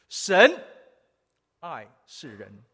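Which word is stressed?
爱. The stress falls on the word 爱.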